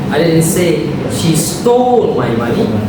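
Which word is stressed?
stole. The stress falls on the word stole. She borrowed it rather than stole it. "She borrowed it"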